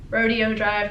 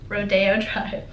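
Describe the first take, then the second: First: Rodeo is said with a Texan pronunciation. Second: Rodeo is said with the standard pronunciation. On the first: The speaker calls it wrong. "because I'm from Texas and that's how I say it" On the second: The speaker calls it right. "supposed to be said"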